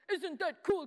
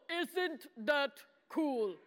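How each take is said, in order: First: Said in the usual way. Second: "Isn't that cool" slowly, each word set apart; drawn-out, insistent "cool"; slow, emphatic repeat. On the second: Shown as a demonstration. Repeats it after weak response.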